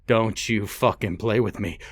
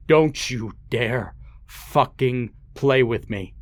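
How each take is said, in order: First: Said in the usual way. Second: Menacing, drawn-out threat; slower, angrier warning. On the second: Acted. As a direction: lean in and spit each word slowly. Father repeats, angrier and slower.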